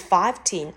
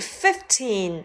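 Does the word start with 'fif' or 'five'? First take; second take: five; fif. First: The word begins with the sound 'five'. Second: The word begins with the sound 'fif'. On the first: The speaker calls it wrong. "不是15" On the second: The speaker calls it right. "而是15，由FIF FIF 加上teen 构成"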